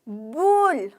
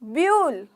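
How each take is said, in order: First: The vowel is a plain 'oo' sound. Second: The vowel is a 'yoo' sound. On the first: The speaker calls it right. "यू ओ की sound निकाल रहा है" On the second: The speaker calls it wrong. "अगर यू को बोलना है व्यूल बोलते हैं आप इसको, ... तो गलत बोल रहे हो"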